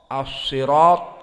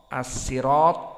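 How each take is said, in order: First: The word is said with an emphatic s sound. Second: The word is said with a plain s sound. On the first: "dan sad"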